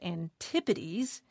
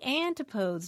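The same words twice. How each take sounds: First: It does not sound like the singular plus s. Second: It sounds like the singular with an s added. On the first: It is the accepted pronunciation of the word. The speaker calls it right. "not antipodes" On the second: It is the plural a child guessed from the singular. The speaker calls it wrong. "naturally assumed that the plural would be antipodes"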